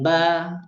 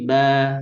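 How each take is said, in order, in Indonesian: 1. Bunyi b diucapkan terlalu kuat. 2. Bunyi b diucapkan dengan kekuatan sedang. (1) "jangan terlalu dikuatkan" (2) "dia mutawassit saja"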